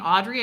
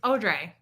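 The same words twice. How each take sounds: First: The name ends with a 'dree' sound. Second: The name ends with a 'Dre' sound.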